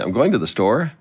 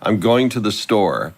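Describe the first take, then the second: First: The voice rises at the end. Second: The voice falls at the end.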